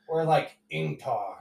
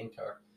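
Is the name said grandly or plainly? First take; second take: grandly; plainly. First: The name is said in a grand, dramatic way. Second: The name is said in a plain, ordinary way.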